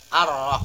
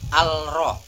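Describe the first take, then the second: First: The article's L merges into a doubled R. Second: The article's L is pronounced before the R. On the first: The speaker calls it right. "Jadi bacanya ar-rah" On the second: The speaker calls it wrong. "bukan al-rah"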